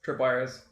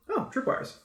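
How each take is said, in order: First: Said in the usual way. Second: Higher-pitched, lightly acted surprise; mock discovery. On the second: Game master acts out spotting tripwires, mock surprise. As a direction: play a sudden noticing.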